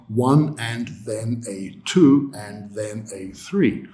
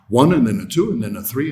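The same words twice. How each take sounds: First: Every word gets full, even stress. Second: Only the numbers are stressed; small words are reduced. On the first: The speaker calls it wrong. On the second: The speaker calls it right.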